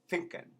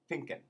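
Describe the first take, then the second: First: It begins with an F sound. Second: The same.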